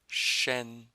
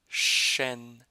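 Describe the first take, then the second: No difference in how they are said.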